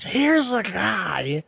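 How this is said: It is said in a put-on announcer voice.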